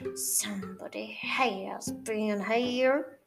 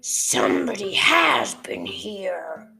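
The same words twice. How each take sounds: First: It is said in a softer, gentler growl. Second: It is said in a loud, deep growl.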